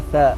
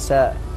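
First: The first consonant is a 'th' sound. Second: The first consonant is an 's' sound. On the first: The speaker calls it right. "مثل النطق في الثاء" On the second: The speaker calls it wrong. "ينطقونها. ساء"

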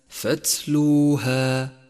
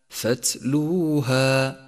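No difference in how they are said.

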